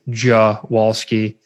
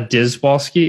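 First: The name begins with a 'j' sound. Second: The name begins with a 'dz' sound. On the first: The speaker calls it right. "DZI makes like a bit of a J" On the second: The speaker calls it wrong. "so it's not a Dizwalski"

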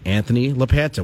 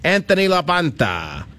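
First: The name is said in a plain, ordinary accent. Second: The name is said with an Italian-style accent. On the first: "I'm going to say it normally" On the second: "I don't know why I'm doing the Italian accentuation"

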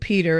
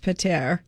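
First: It is said like the English name. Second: It is said with French sounds. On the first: The speaker calls it wrong. "It's not pronounced like Peter" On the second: The speaker calls it right. "It's Peter"

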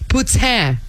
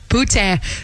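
First: It is said with a ts sound. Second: It is said with a plain t sound. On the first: "there's a hidden S in it now" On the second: "instead of just poutine"

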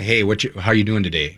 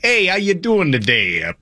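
First: It is said in a neutral accent. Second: It is said in a Boston accent.

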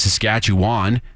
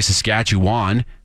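First: Every syllable is said as spelled. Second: The same.

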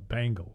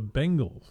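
First: The first syllable sounds like 'bang'. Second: The first syllable sounds like 'ben'. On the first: The speaker calls it wrong. "not the Bengals" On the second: The speaker calls it right. "they're the Bengals"

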